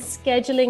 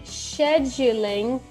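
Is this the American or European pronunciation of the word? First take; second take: American; European. First: It is said the American way. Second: It is said the European way. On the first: "scheduling is the Americanized version" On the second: "scheduling is the European version"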